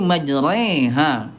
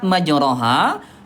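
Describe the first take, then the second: First: The vowel after r leans toward e. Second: The vowel after r is a plain open a. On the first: "dibaca ada imalah nih, imalah menjadi majreha" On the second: "kalimat majroha"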